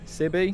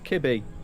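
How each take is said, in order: First: The name begins with an S sound. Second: The name begins with a K sound. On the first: The speaker calls it right. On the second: The speaker calls it wrong. "I always read that as Kibby"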